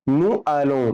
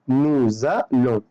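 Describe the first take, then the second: First: The words are said without a linking z sound. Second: A z sound links the two words together. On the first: The speaker calls it wrong. "بس انا كده يا ميسيو نطقت غلط" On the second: The speaker calls it right. "لازم اقول نو زالون"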